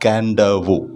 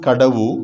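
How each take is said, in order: First: It is said with an n before the d. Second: It is said with no n before the d. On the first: This is how the islanders say the name. "but pronounced as Kandavu" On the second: This is how the name is written. "written as Kadavu"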